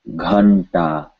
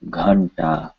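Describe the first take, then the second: No difference in how they are said.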